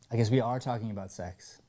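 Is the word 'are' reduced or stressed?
stressed. The word 'are' is said in full and stressed. The speaker calls it right. "If you don't put any emphasis on the word are, it loses the meaning"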